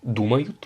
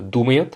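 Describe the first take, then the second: First: "думают" said as dumayut, with clear u sounds; "думают" with u in first and last syllables; corrected vowels. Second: "думают" said as domayet, with o and e; "думают" with its u sounds weakened to o and e; mispronounced vowel. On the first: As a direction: say "думают" as "du-ma-yut". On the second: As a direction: say "думают" slipping to "do-me-yet". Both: Shown as a demonstration.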